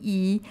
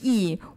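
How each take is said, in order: First: It is said with the first tone. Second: It is said with the fourth tone. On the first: It means one. "number one" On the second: It means righteousness. "The fourth term is yi"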